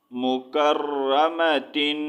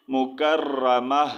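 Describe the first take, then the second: First: مکرمتن read slowly through to -tin; slow Quran-lesson مکرمتن, ending on a held -tin; full ending -tin. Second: مکرمہ very slow, ending in a breathed h; drawn-out مکرمہ closing on "-mah"; pausal ha ending. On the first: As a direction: sound the final ta in مکرمتن as "tin". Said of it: "مکرمتن نہیں ریڈ کرنا". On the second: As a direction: stop on مکرمہ with ta turned to "h". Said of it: "اس کا sound ہم نے ہا میں change کر دینا ہے". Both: Shown as a demonstration.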